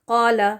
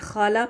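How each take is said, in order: First: It starts with a deep q from the throat. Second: It starts with a raspy kh sound. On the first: The speaker calls it right. "ये क्यू के साथ क़ाला" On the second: The speaker calls it wrong. "के एच लगा के ख़ा के साथ पढ़ना, ये खाला पढ़ देना, ये गलत है"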